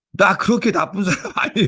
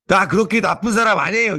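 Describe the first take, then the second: First: Put-on higher childish protest breaking into a laugh; childlike. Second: Put-on higher, indignant little child protesting; mock angry child. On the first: Pastor retelling the child's innocent reply, laughing childishly. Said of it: "어린아이답게". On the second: Five-year-old snapping back at the pastor, mock indignant. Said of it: "화를 내면서 이러는 거 있죠".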